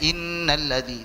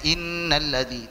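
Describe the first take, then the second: First: The nasal sound is held for two beats. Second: The same.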